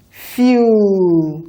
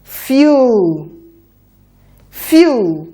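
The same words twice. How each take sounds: First: "Fuel" drawn out slowly, sounds stretched apart; slow segmented blending of "Fuel". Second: "Fuel" said quicker as one smooth word; quick, joined-up "Fuel"; faster blending. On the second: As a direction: run the sounds of "Fuel" together fast. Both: Shown as a demonstration. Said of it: "A bit faster now".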